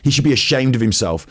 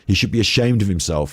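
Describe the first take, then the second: First: It is read in a put-on character voice. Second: It is read in the speaker's natural voice.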